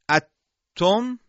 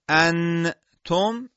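First: The n disappears into a doubled t sound. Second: The n is fully pronounced with tongue contact. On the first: "این ادغامه" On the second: "این اظهاره"

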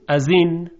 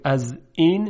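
First: The words link smoothly without a glottal stop. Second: A clear glottal stop separates the two words. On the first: "یعنی اون رو خیلی راحت تلفظ میکنیم" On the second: "به جای اینکه بگیم از این"

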